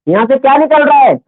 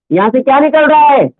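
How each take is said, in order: Both takes have the same delivery.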